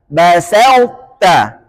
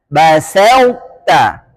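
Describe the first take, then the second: No difference in how they are said.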